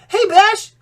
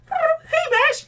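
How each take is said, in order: First: It is said in a plain, normal voice. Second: It is said in a put-on bird-girl voice.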